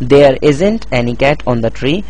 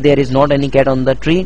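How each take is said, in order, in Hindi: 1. 'Is not' को मिलाकर एक शब्द की तरह बोला जाता है। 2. 'Is not' को दो पूरे शब्दों की तरह बोला जाता है। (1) "आमतौर पर इस तरह कहा जाता है" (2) "ये कहने के बजाय कि"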